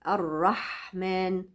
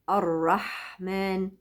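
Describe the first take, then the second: The two takes are said the same way.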